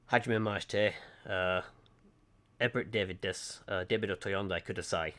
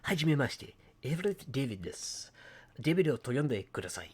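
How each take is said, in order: First: Japanese said in a Lancashire accent, flat English vowels. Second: "Hajime maste" with Japanese vowels, a bit higher; Japanese-style pronunciation. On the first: Showing viewers his Lancashire-accented Japanese. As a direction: say "Hajime maste" with a Lancashire accent. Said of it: "as a Lancashire person in Japanese". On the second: Contrasting take for viewers, Japanese-style pronunciation. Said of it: "rather than going". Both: Shown as a demonstration.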